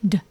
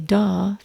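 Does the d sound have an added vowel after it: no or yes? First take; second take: no; yes. First: The d sound is crisp with no vowel. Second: A short vowel follows the d sound. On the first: The speaker calls it right. "we say d. ... crisp and clear" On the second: The speaker calls it wrong. "we don't say duh for D"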